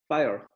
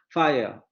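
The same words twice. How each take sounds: First: The r is pronounced and the triphthong blurs. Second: The r is dropped and the triphthong is clear. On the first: "en inglés nosotros diríamos fire ... con el rotacismo" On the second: "en inglés británico es mucho más perceptible el triptongo"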